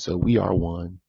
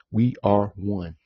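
First: Said in the usual way. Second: Slow, with weight on we; solemn slowed restatement; slow emphatic repeat. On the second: Real, not acted. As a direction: lean on each word, slowly. Repeats his point for emphasis.

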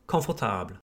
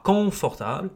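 First: Confortable as "kon-for-TABL", low and falling; French confortable, softer, weight on "table"; stress on final syllable. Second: French confortable misstressed at the front; stress on first syllable. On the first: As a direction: lean on the last syllable of confortable. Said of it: "French tends to emphasize the final syllable". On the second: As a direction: wrongly say confortable as "CON-fortable". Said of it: "Pas confortable". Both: Shown as a demonstration.

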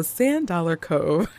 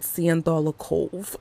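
First: Said in the usual way. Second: Imitating an animated character's pronunciation; animated character's accented delivery. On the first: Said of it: "And so Sand Dollar Cove". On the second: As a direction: say it like the cartoon character, oddly pronounced. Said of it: "it's the way that she says it".

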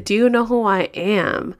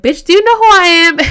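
First: Mock haughty. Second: High, loud joking indignation; mock self-important outburst. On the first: Same line, haughty in queue. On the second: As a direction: shout it like a jokey big shot. Pulling rank as chair, joking.

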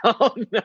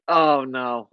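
First: Higher, louder, amused mock panic; hammed-up startled denial; mock alarmed oh no. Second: Said in the usual way. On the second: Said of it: "And I'm like".

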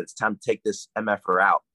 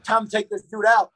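First: Said in the usual way. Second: High, loud re-enacted yell; retold yell. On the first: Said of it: "I basically yelled". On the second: Wrestler reliving his shout before leaving the back room, yelling. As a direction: yell it out high, as if psyching yourself up. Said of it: "I guess I yelled".

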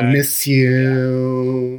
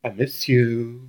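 First: Very slow, higher, louder whining pop-punk voice; full [name] whine. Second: Slow, lightly whiny pop-punk singer voice; a hint of a nasal pop-punk whine, drawn out; [name] whine. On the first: Retold or imitated. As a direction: lean all the way into the whine, stretching every word. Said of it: "you really have to lean in". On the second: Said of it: "a whiny voice".

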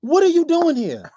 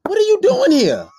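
First: Slower, drawn-out angry disbelief; slower upset repeat. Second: Loud, high shout of disbelief; upset shout. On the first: Repeating the question to the uninvited girlfriend, drawn out and upset. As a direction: stretch each word, still upset. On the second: Shouting at the girlfriend who showed up uninvited, angry. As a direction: bark it out at the uninvited guest. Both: Retold or imitated. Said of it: "I was so upset".

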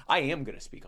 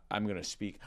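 First: "am" punched, quicker delivery; stress on AM. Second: Said in the usual way. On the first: Real, not acted. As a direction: hit the word "am" as a firm self-correction. Corrects himself with emphatic am.

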